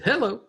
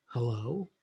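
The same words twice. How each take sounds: First: High, loud, brisk hello; energetic phone hello. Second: Low, soft, drawn-out hello; subdued phone hello. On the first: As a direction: answer the phone full of energy. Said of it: "whether they say". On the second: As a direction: answer the phone with little energy. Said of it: "whether the person says". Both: Shown as a demonstration.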